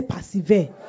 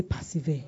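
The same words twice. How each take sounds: First: Firmer call to repeat the word; louder prompt. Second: Said in the usual way. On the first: Real, not acted. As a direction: prompt the congregation to answer louder. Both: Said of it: "I can't hear you".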